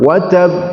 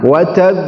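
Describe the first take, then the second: First: The final echo sound is held too long. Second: The final echo sound is held briefly. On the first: The speaker calls it wrong. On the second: The speaker calls it right. "Ditahan satu detik"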